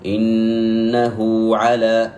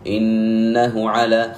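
First: إنه على with the ha of إنه lengthened into a long u; correct recitation. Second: إنه على with the ha of إنه short and unstretched; wrong reading. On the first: Teacher showing the right reading, slow chanted recitation. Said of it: "كيف أقرأها؟". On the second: Teacher showing the mistake, short unstretched reading. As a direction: read إنه على clipped, no lengthening on the hu. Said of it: "ولا أقرأها بهذه الطريقة". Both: Shown as a demonstration.

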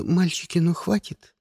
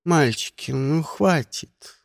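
First: Said in the usual way. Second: Lazy, drawn-out mild reproach; can't-be-bothered telling-off; lazy, unbothered. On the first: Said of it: "что говорила: 'Мальчики, ну хватит'". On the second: A narrator's reading. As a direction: say it idly, dragging the last word. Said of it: "лениво негромко сказала".

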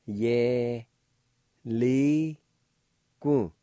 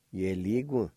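First: Ye, li, gu said apart, each loud and stressed; slow, loud syllables. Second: Ye li gu said quickly as one word; run together. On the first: Teacher drilling students on the word, loud and slow. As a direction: spell out Ye li gu one syllable at a time. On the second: Teacher giving students the whole word, smoothly blended. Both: Shown as a demonstration. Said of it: "And it's pronounced like this".

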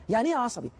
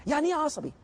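First: Said in the usual way. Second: إيه asked high, as a pointed challenge; high probing question. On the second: Shown as a demonstration. Teacher challenging students, high pointed question. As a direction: lift إيه high to make them think. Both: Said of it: "فكر فيها".

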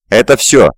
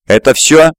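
First: "Это всё" as a statement, falling on всё; a plain confirming "Это всё" with a final fall. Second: "Это всё?" with pitch rising high on всё; higher-pitched demanding "Это всё?", ending on a rise; demanding question. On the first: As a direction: confirm it, letting the pitch drop on всё. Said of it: "подтвердил старик". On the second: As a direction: press for an answer, lifting всё sharply into a question. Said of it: "требовательно спросил он". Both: A narrator's reading.

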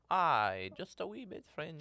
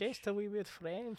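First: Just a wee bit French, said much higher in a put-on French accent; mock French accent. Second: Much higher and slow, a mock French accent; echoing the friend in a mock French accent. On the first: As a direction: lean into a silly French accent. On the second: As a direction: drawl it in a hammed-up French accent. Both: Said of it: "go a little French".

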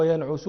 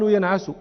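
First: "ينعس" said yan'usu; rounded 'u' after the ayn in "ينعس"; damma on middle letter. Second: "ينعس" said yan'asu; fatha on middle letter. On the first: Teacher quoting a grammar verse, "ينعس" with damma. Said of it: "بالضم فيه". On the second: Teacher quoting the alternative form, "ينعس" with fatha. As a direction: open 'a' after the ayn in "ينعس". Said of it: "ويقال". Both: Shown as a demonstration.

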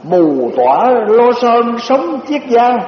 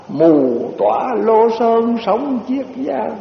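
First: Slow, drawn-out poem recitation; recited verse. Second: Slow falling close of the poem; recited verse, closing line. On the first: Monk reciting a translated poem, slow and drawn out. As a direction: savor each word of the verse. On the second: Monk closing the verse, slow and falling. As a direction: let "Lô" fall as the poem ends. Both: Shown as a demonstration. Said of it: "người ta dịch ra cái bài này".

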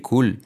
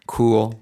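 First: "cool" as Spanish 'kul'; short 'kul', clear L; faulty clear L. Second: "Cool" as 'KOO-ol', L far back; emphatic backed ending on Cool; dark L. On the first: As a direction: mistaken COOL with a light tongue-tip L. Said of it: "No vamos a decir cool". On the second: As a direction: correct COOL with swallowed L. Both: Shown as a demonstration.

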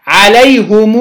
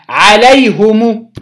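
First: عليهم said "alayhumuu", long final oo; damma with sila. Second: عليهم said "alayhumu", short final u; slow عليهم with u after both h and m; damma on mim. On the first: Teacher showing the linked form, عليهم as "alayhumuu". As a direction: hold the last u of عليهم after "hum". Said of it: "بصلة الميم". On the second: Teacher showing the second form, عليهم as "alayhumu". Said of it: "بالضم الميم". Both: Shown as a demonstration.

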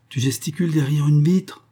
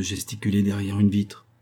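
First: Raised, high-pitched incredulous question; high cry of a question. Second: Said in the usual way. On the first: Acted. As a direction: call it out high, rising at the end. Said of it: "criait-il".

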